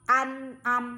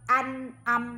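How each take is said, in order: The two takes are said the same way.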